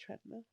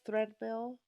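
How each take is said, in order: First: The word begins with a 'tr' sound. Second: The word begins with a 'thr' sound. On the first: The speaker calls it right. "It's treadmill" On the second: The speaker calls it wrong. "but it's not threadmill"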